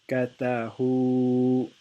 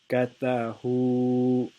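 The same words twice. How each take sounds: No difference in how they are said.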